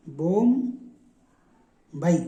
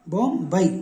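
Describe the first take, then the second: First: बॉम्बई stretched very slowly, syllable by syllable; drawn-out syllables. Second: Said in the usual way. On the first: Shown as a demonstration. Teacher sounding out बॉम्बई slowly for students. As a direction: spell out बॉम्बई slowly for the class. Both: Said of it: "बो की मात्रा लगा दी".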